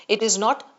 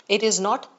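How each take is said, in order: Both takes have the same delivery.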